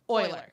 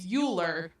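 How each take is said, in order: First: The name is said unlike its written form. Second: The name is read the way it looks written. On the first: The speaker calls it right. "So that's how that's pronounced" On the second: The speaker calls it wrong. "it looks like it's Euler"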